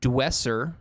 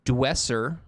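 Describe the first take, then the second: First: The name is pronounced like 'dwesser'. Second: The same.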